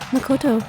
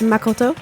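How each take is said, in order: First: The name is said with a plain accent. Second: The name is said with a French accent. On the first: "she does not say Makoto" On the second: "She says Makoto ... with a slight French accent"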